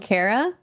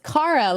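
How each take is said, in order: First: The first syllable does not sound like car. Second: The first syllable sounds like the word car. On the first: The speaker calls it wrong. "my whole life I've been called Kara" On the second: The speaker calls it right. "like a car, vroom vroom"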